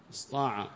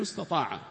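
First: "استطاع" said as istaa'a, ta dropped; pronounced without the ta. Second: "استطاع" said in full as istataa'a; pronounced with the ta. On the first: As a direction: say "استطاع" short as اسطاع, s straight into emphatic t. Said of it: "الطاء من غير التاء". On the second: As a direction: sound both ت and ط in "استطاع". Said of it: "الذي هو أثبتت التاء معه". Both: Shown as a demonstration.

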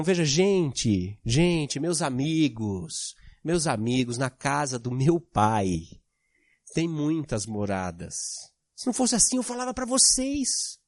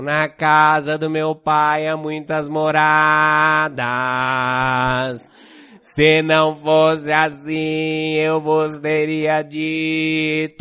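First: Lower, softer, slow, heartfelt appeal; with intonation. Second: Slow, loud, sung-out liturgical chant; priest's Bible voice. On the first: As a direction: speak it like you mean each word to friends. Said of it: "Agora vamos dar um pouco de entonação". (com entonação, mais grave e suave, devagar e sentido) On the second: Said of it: "ler Bíblia com voz de padre". (voz de padre lendo a Bíblia, lenta e cantada) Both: Shown as a demonstration.

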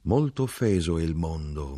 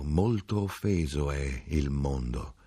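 First: Said in the usual way. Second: Softer, slower, sad repetition; fading echo. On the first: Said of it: "dicevano i suoi occhi". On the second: A narrator's reading. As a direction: let it die away in sorrow. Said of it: "dicevano i suoi occhi con tristezza". (ripetizione più piana, lenta e triste)

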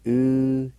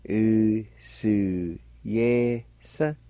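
First: "Usuyesan" said quickly as one word; natural take of "Usuyesan"; Cherokee word at normal pace. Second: "Usuyesan" drawn out very slowly; very slow teaching take of "Usuyesan"; very slow Cherokee pronunciation. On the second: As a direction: stretch every sound of "Usuyesan". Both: Shown as a demonstration. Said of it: "It's pronounced like this".

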